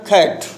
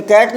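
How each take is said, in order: First: "खैट" with a puff of air on the first sound; bursting K. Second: Said in the usual way. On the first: Shown as a demonstration. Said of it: "कै और खे के बीच का sound". ("खैट" की शुरुआत फटी आवाज़ में, कै और खे के बीच) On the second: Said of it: "कैट ना बोलकर खैट".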